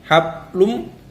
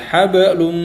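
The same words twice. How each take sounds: First: The b is closed plainly without any bounce. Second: The b is released with a light bouncing echo. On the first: The speaker calls it wrong. "bukan cuman hablum" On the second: The speaker calls it right. "tapi tetap dibaca qalqalah"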